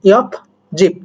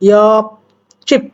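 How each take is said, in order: First: The second syllable starts with a soft j sound. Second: The second syllable starts with a tense jj sound.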